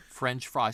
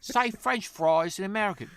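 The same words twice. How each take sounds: First: Said in the usual way. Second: High, loud Essex English demand; mock Essex accent. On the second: Essex local asking an American to perform, high mock English accent. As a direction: put on an excitable Essex accent, pitched up. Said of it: "everybody talk like this".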